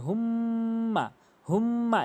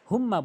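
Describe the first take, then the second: First: হুম্মা with a long nasal hum on the m; হুম্মা with ghunnah. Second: হুম্মা with a short m; mispronounced হুম্মা. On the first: Teacher demonstrating the rule, long hummed হুম্মা. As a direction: hold the m of হুম্মা through the nose. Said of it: "অবশ্যই ওয়াজিব গুণনা করতে হবে". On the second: Teacher showing the common way, short হুম্মা. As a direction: say হুম্মা without holding the hum. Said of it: "এখানে হুম্মা বলি". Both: Shown as a demonstration.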